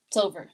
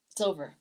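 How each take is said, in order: First: Said in the usual way. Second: Quiet finality. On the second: Real, not acted.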